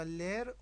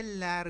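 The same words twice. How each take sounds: First: لر with a closer "e" as in let, "ler"; closed-vowel variant. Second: لر with an open "a" as in cat, "lær"; open-vowel variant. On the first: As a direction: say لر with a narrower e. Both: Shown as a demonstration.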